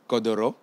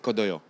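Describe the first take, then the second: First: The middle consonant is an r sound. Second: The middle consonant is a y sound. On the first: This is what some people call it. The speaker calls it wrong. "certains appellent kodoro" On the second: This is how the speaker's own language says it. The speaker calls it right. "en réalité dans la prononciation de notre langue"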